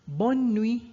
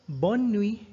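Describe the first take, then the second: No difference in how they are said.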